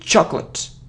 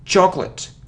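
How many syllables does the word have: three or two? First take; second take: two; two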